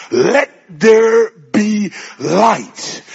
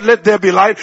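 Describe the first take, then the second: First: Loud, very drawn-out proclamation; commanding shout. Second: Said in the usual way. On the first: Acted. Preacher as God calling creation forth, commanding shout. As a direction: call it out slowly, word by word. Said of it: "clears his throat and he shouts".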